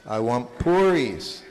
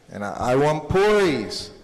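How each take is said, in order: First: Said in the usual way. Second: A bit louder, insistent, mildly angry; retold angry demand. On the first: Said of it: "he would say". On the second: Boy insisting to his mother on puris, mildly angry. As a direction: put some mock anger into wanting puris. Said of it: "So finally he gets angry".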